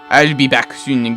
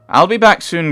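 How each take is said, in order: First: It is spoken in a French accent. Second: It is spoken in a posh English accent. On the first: "Well, French" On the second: "He's a general. He has a posh accent"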